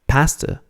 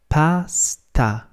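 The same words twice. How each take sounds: First: The final vowel is weak and neutral. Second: The final vowel is as full as the first. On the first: The speaker calls it wrong. "the English way of pronouncing the word pasta is" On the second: The speaker calls it right. "in Italian it's pronounced pasta, pasta. So there's just as much emphasis on the second A"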